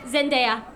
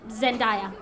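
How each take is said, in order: First: The ending does not rhyme with papaya. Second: The ending rhymes with papaya. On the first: The speaker calls it right. "It does not rhyme with papaya. It's Zendaya" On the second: The speaker calls it wrong. "not Zendaya"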